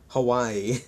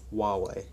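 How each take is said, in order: First: It is said to sound like Hawaii. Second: It is said with the company's own pronunciation. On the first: The speaker calls it wrong. "not Hawaii" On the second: The speaker calls it right. "that is actually their pronunciation"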